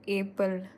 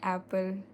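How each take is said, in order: First: The word is said with an altered childhood pronunciation. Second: The word is said with its usual pronunciation.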